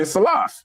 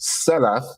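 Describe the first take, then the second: First: "Salaf" as suh-LAHF, long open second vowel; Cincinnati pronunciation. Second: "Salaf" as SEL-uf, short first vowel; first-syllable stress. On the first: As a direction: lean on the second syllable of "Salaf". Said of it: "That's just how we talk". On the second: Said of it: "So when I say Salaf". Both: Shown as a demonstration.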